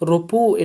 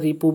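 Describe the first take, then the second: First: The vowel after the r is 'a'. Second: The vowel after the r is 'i'. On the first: "উর্দুতে এটা র এর উপর ফাতহা দিয়ে পড়া হয়" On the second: "বাংলা ভাষায় এটা র এর নিচে জের দিয়ে পড়া হয়"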